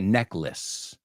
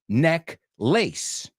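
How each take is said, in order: First: The second part is a reduced 'less'. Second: The second part is a full 'lace'. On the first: The speaker calls it right. "Se pronuncia necklace. ... Suena exactamente igual" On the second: The speaker calls it wrong. "no se pronuncia neck lace"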